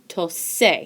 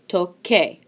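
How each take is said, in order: First: The consonant before the final vowel is an s. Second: The consonant before the final vowel is a k. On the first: The speaker calls it wrong. "that would be pronounced tose. Tose does not sound like tocar" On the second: The speaker calls it right. "Toque sounds like tocar"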